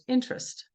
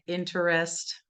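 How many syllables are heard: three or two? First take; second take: two; three. First: The middle syllable is dropped, giving two syllables. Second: The word is said with three full syllables. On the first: "is just interest" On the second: "three syllable words like interest"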